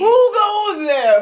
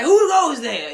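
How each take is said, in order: First: Very high, loud and slow hammed-up challenge; exaggerated guard challenge. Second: High, loud mock-startled challenge; mock guard challenge. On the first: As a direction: stretch it out like a spooked sentry. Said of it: "But I don't sound like this". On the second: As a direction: call out like a spooked sentry. Startled by own reflection.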